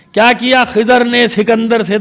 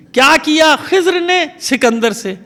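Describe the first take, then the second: First: خضر said khi-zar, an extra vowel before the r; wrong khizar version. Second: خضر said khizr, z and r joined with no vowel between, slow recited verse; correct Khizr in the verse. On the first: Preacher showing the audience the wrong khizar reading. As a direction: say خضر as two syllables, khizar, breaking the metre. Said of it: "اب یہاں خضر پڑھیں تو وزن سے مصرع". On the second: Preacher quoting Ghalib to his listeners, slow correct khizr. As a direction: recite the line slowly, خضر as khizr in one syllable. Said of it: "غالب نے مسئلہ حل کیا". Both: Shown as a demonstration.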